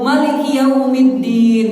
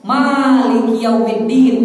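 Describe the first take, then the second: First: The first vowel of the first word is short. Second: The first vowel of the first word is long. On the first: "bisa juga" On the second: "ma-nya panjang"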